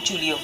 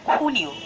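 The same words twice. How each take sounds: First: It begins with an English J sound. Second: It begins with a throaty, raspy H sound. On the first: The speaker calls it wrong. "It's not Julio" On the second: The speaker calls it right. "Jota will always pronounce as Kha. So it's Julio"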